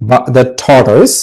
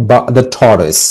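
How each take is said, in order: No difference in how they are said.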